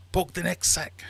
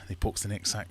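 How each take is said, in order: First: High, loud command; hammed-up officer's order, pitched up; soldier's order. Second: Said in the usual way. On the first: German ordering the Irishman's sack poked, high loud voice.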